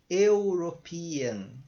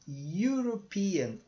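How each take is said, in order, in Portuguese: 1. A palavra começa com um som de vogal simples. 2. A palavra começa com um som de 'you'. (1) "você não pronuncia isso aqui" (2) "se falar you"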